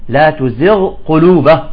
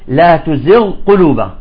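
Both takes have the same delivery.

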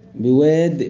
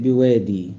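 First: The word ends without a final long vowel. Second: The word ends with a long ee vowel. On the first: "والباقون بواد" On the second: "يقف بالياء"

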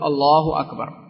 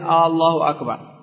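First: It starts directly with Allah, as a plain statement. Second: An extra glottal a-sound before Allah makes a question. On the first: It states that God is greatest. The speaker calls it right. "فقل الله أكبر" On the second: It asks whether God is greatest. The speaker calls it wrong. "فلا يزيد عليها همزة تحولها من الخبر إلى الاستفهام، لا يقول"

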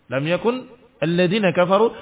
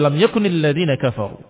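First: The words are read separately without a linking vowel. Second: The words are joined with a linking i vowel. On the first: "Seakan-akan tidak ada harokat" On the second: "digabung jadi"

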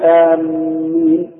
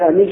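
First: The m sound is doubled and held longer. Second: The m sound is single and light. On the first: The speaker calls it wrong. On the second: The speaker calls it right.

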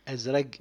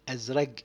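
No difference in how they are said.

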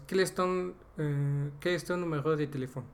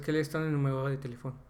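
First: The first part is spoken slowly. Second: The first part is spoken quickly. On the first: "lo dije la primera parte lento" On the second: "Pero pronunciado es"

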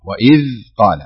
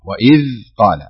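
First: The dh is fully articulated with the tongue forward. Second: The dh is fully articulated with the tongue forward.

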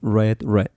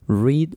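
First: The vowel is short, rhyming with bed. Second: The vowel is long, rhyming with bead. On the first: It is the past form of the verb. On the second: It is the present form of the verb.

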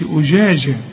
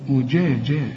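First: The j sound blends toward an sh sound. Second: The j sound stays a distinct j. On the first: The speaker calls it wrong. "ما خلطهاش بالشين، ما قلش أجاجة" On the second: The speaker calls it right. "شوف الجيم معطشة إزاي"

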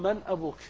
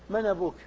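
First: The glottal stop before 'abuk' is clearly pronounced. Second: The glottal stop is dropped, its vowel joined to 'man'. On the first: "يحققون الهمزة" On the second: "احذفها وانقل حركتها إلى الساكن قبلها"

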